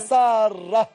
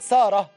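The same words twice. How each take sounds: First: The r sound is doubled and held longer. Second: The r sound is short and single. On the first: The speaker calls it right. "هي اسمها ساره" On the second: The speaker calls it wrong. "بنقول ساره، غلط"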